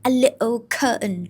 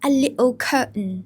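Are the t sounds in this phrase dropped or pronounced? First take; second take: dropped; dropped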